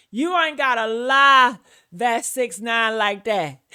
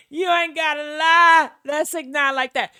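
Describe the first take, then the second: First: Mocking imitation. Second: Lighter, higher mock take; mocking imitation, higher. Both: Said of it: "that's what she just kept on saying".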